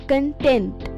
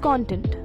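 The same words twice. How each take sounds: First: The stress is on the second syllable. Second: The stress is on the first syllable. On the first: It means being satisfied with what one has. "the stress shifts to the second syllable" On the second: It is a noun meaning the substance of something. "The first syllable rhymes with Don and John"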